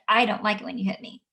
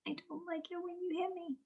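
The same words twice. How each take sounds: First: Big voice. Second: Very quiet, small high voice; a timid child barely speaking up; tiny voice. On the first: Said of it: "use their big voice". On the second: Shy child answering teacher in a tiny voice. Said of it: "sometimes the child's gonna say". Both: Retold or imitated.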